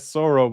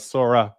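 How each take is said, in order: First: The name ends in an 'oh' sound. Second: The name ends in an 'ah' sound. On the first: The speaker calls it wrong. "I was pronouncing it wrong the entire time. I was saying Soro" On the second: The speaker calls it right. "Sora with an A"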